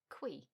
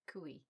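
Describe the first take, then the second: First: The vowels merge into a single syllable. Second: The vowels form two syllables, stressing the u. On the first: The speaker calls it wrong. "I was pronouncing it qui" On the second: The speaker calls it right. "with a stress on the U, making that two vowels, I guess, separate syllables"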